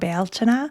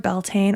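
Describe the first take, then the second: First: It is said in a traditional Irish way. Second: It is said in an anglicized English way. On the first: This reconnects with Irish ancestry. "I do love the way that Bealtaine sounds" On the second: This is how non-Irish speakers usually say it. "Beltane is more typically the way it's pronounced by non-Irish speakers"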